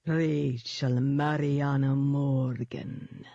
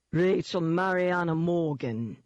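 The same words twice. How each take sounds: First: Slow, drawn-out demon dog purr. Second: Slow, mocking London thug voice. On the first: Demon dog names its prey, honey-sweet and slow. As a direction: savour the full name, dark and sweet. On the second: London demon taunts cornered heroine by name, mocking. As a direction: drawl the full name in mockery. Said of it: "it mocked". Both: A narrator's reading.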